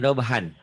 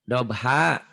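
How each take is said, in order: First: The word ends with an n sound. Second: The word ends on an open vowel. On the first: The speaker calls it wrong. "Jangan dobhan" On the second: The speaker calls it right. "Dobha mad'iwad"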